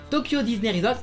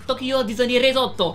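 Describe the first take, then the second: First: It is said with a French accent. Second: It is said with a Japanese accent. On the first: This is the usual way to say it. "pour dire Tokyo Disney Resort" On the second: This is how Japanese people say it. "les japonais ... ils disent"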